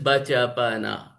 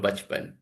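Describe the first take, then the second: First: Every written vowel is pronounced, giving four syllables. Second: The inner vowels are dropped, giving two syllables. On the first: The speaker calls it wrong. "The model would read it as bachapana" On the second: The speaker calls it right. "which ideally we pronounce it as bachpan"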